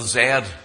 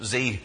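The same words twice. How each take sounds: First: The letter is said the British way, zed. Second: The letter is said the American way, zee.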